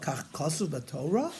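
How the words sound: It is said gently, like a question. It respectfully asks whether this is what is written. The speaker calls it right. "like in a in a bitmiyah fashion, in a question mark"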